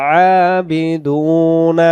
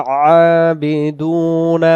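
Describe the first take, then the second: The two takes are said the same way.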